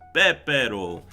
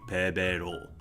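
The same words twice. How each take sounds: First: The first consonant is a tense, stiff p. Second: The first consonant is a plain, lax p. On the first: "because we have doubles here, it's Pepero" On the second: "without the double, with like this, it would be Pepero"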